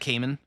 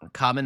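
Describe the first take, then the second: First: The first vowel sounds like 'ay'. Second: The first vowel sounds like 'ah'. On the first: The speaker calls it wrong. "not Cayman" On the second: The speaker calls it right. "Common, not Cayman"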